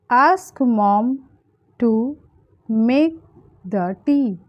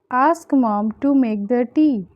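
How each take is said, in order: First: Long pauses between short chunks; word-by-word breakdown. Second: Said in the usual way. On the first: Shown as a demonstration. Teacher giving learners the English translation, piece by piece. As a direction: separate "Ask mom", "to", "make", "the tea" with pauses.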